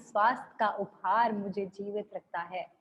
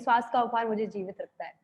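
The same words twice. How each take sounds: First: It is read slowly and calmly. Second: It is read quickly and hurriedly.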